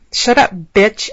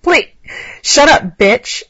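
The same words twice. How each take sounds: First: Slower, milder yell; a restrained read of the yell. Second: Loud, harsh shout; yelling. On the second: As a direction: bark it out loud and rough. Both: A narrator's reading. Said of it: "Alex yelled".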